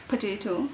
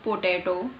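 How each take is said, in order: First: POTATO with a weak "puh" first syllable; corrected POTATO. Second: POTATO with full even vowels, "po-tay-to"; mispronounced POTATO. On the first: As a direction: say POTATO as "puh-TAY-toh". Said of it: "it's potato". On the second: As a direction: give POTATO a full O in the first syllable. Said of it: "It's not potato". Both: Shown as a demonstration.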